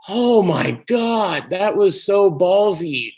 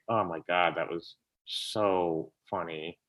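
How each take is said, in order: First: Higher, louder, slow amazed "so ballsy"; awed excitement. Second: Lower, softer, slow amazed "so funny"; hushed delight, almost to yourself; quiet awe. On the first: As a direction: relive the thrill of seeing something daring. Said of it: "And I was like". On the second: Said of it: "I just was like". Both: Retold or imitated.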